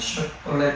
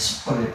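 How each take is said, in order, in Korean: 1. 이 단어는 'sh' 소리로 시작해요. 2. 이 단어는 평범한 's' 소리로 시작해요. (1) "그냥 슈퍼릿 이렇게 되는데" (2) "이 발음이 안 되는 거예요. 슈퍼릿 되는 거죠"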